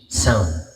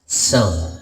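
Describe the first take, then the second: The two takes are said the same way.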